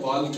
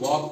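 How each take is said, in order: First: The L sound is pronounced. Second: The L sound is silent. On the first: The speaker calls it wrong. "वाल्क नहीं पढ़ते हैं" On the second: The speaker calls it right. "इसीलिए इसको वॉक पढ़ते हैं"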